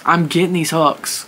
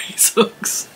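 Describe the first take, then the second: First: Said in the usual way. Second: "these hooks" breathed out voiceless, laughing; whispered through a laugh. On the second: Real, not acted. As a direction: let it slip out as a giggling whisper. Laughing, breathy final repeat.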